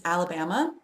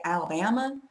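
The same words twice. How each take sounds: First: Said in the usual way. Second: "Alabama" with a little twang on the stressed BAM; silly twang. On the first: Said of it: "if I want to be especially silly". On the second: Pretend. Speaker pretending to be from Alabama, twangy Alabama. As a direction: twang the a's in Alabama, squashed together. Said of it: "put a little bit of twang in it".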